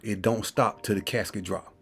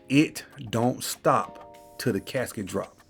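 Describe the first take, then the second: First: It is said at a quicker pace. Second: It is said slowly and deliberately.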